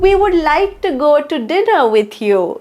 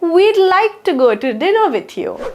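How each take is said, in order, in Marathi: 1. 'would' हा शब्द पूर्ण म्हटला जातो. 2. हे शब्द 'we'd' असे आखूड केले जातात.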